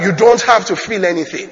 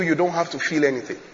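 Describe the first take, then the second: First: "don't" hit louder, held slightly; stress on don't. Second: Said in the usual way. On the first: Real, not acted. Preacher drives the point home to congregation, stress on "don't". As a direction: punch the word "don't" as you repeat it.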